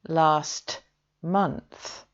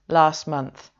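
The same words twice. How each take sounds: First: The t at the end of 'last' is pronounced. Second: The t at the end of 'last' is dropped. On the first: "when we say last month" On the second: "that middle t sound is actually missing"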